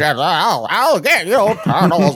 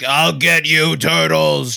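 First: It imitates Krang's voice with weird mouth noises. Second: It imitates Shredder's eighties villain voice.

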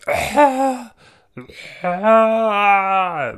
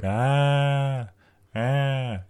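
First: It sounds like dramatic wailing. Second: It sounds like ordinary crying.

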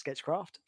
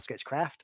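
First: It is said in a British accent. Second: It is said in an American accent.

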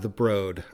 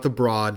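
First: The vowel sounds like the one in 'road'. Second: The vowel sounds like the one in 'broad'. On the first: The speaker calls it right. "I was corrected by the staff" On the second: The speaker calls it wrong. "not the Broad"

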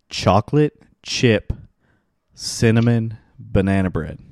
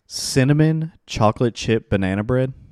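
First: It is said slowly. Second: It is said at normal speed.

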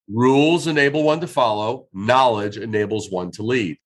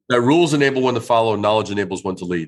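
First: It is said slowly. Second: It is said fast.

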